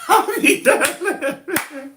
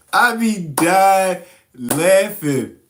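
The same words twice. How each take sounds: First: High, slow, laughing through the words; imitating her squealing with laughter; high laughing impression of her. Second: Said in the usual way. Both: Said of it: "She be like".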